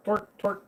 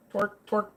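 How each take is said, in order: Both takes have the same delivery.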